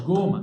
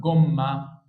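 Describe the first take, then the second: First: جومة with long vowel and short M; wrong single M. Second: جمة slower, with short vowel and held M; correct double M. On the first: Teacher shows what it isn't, جومة with a single M. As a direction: say جومة with only one M. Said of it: "هنا مش جومة". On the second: Teacher gives the right name, جمة with long doubled M. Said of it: "اسمها جمة". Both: Shown as a demonstration.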